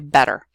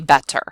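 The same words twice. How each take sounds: First: The middle consonant is a quick d-like tap. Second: The middle consonant is a clear t sound. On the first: This is how most United States speakers say it. "we say better. And it's actually what's called a tap" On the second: This is how speakers outside the United States say it. "if you're from somewhere other English-speaking country, you may say better"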